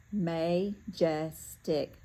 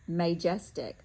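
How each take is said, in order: First: Slow, careful sounding out of majestic; teacher decoding a new word slowly. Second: Said in the usual way. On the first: Shown as a demonstration. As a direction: stretch majestic out syllable by syllable. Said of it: "this, uh". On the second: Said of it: "says majestic".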